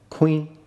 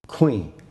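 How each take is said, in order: First: The word is said on a mid tone. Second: The word is said on a low tone. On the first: It means grindstone. "mid-tone, means grindstone" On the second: It means chicken. "low tone, means chicken"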